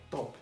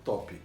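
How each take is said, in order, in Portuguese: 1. Termina bem na consoante 'p'. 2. Termina com um som de vogal 'i' acrescentado. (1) "é top. Top. Não tem i no final" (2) "não é top"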